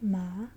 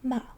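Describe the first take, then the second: First: The pitch rises toward the end. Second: The pitch falls all the way down. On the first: "you kind of go up at the end" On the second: "it goes all the way down with your pitch"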